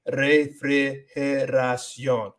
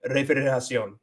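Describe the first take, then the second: First: Very slow "refrigeración", syllable by syllable; letter by letter. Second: Quick, run-together "refrigeración"; said faster. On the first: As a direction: stretch out each syllable of "refrigeración". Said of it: "letter by letter". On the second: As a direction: say "refrigeración" quickly as one word. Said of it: "But if I say it faster". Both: Shown as a demonstration.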